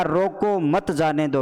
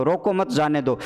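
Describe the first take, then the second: First: रोको stressed, then मत जाने दो as one phrase. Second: मत stressed, closing रोको मत before जाने दो. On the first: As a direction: set off रोको, run मत जाने दो together. (रोको पर ज़ोर, मत जाने दो एक साथ) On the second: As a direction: join रोको मत, then let जाने दो follow. (मत पर ज़ोर, फिर जाने दो) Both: Shown as a demonstration. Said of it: "विराम चिन्हों के गलत प्रयोग से".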